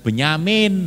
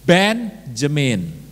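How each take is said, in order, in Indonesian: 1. Konsonan tengah terdengar seperti y dalam bahasa Inggris. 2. Konsonan tengah terdengar seperti j dalam bahasa Inggris. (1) "Jangan Benyamin, nah itu yang lain. Kalau itu ya Anda tambahkan Sueb" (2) "Nah itu yang benar"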